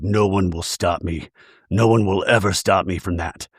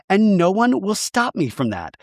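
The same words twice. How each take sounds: First: Deeper menacing voice. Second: Put-on lightly higher sweet baby voice saying a threat; a hint of a cutesy baby voice; mock baby voice. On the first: Shown as a demonstration. Showing how the bride's line would sound in a deep menacing voice. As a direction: say it low like a real threat. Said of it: "if you said it in a deeper voice". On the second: Imitating the bride's threat in a light baby voice. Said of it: "she says it in this, like, baby voice".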